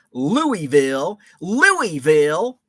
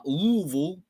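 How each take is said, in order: First: Slow, drawn-out northern "Louisville", every vowel sounded; Yankee pronunciation. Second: "Louisville" swallowed to two syllables, luh-vul; local pronunciation. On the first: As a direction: say "Louisville" like a Yankee, lou-ee-ville. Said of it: "And I say it like a, a true Yankee". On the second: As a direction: say "Louisville" with as few vowels as possible, luh-vul. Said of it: "with as few, uh, vowels as po". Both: Shown as a demonstration.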